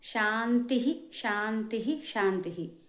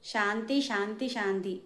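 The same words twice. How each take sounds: First: Each word ends with a breathy h sound. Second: Each word ends without a breathy h sound. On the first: The speaker calls it right. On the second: The speaker calls it wrong.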